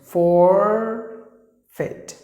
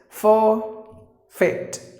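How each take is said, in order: First: It is said in an American accent. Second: It is said in a British accent. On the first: "American is forfeit, for er" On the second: "That's British"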